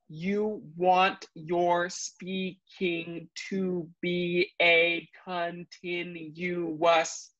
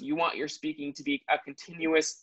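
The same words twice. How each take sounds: First: Every syllable is exaggerated with wide mouth movements. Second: Every syllable is spoken at a relaxed conversational pace. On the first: "I'm going to enunciate it more" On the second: "At that conversational speed"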